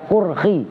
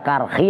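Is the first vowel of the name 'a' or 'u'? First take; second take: u; a. First: The first vowel sounds like 'u'. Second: The first vowel sounds like 'a'. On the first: "ada yang baca kurkhi" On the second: "ada yang baca karkhi"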